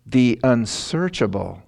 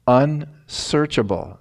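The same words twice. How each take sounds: First: Said in the usual way. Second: Unsearchable drawn out slow and a bit higher; slow emphatic unsearchable; stressed, slow. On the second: Shown as a demonstration. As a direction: lean on unsearchable so it sinks in. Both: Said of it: "let that sink in".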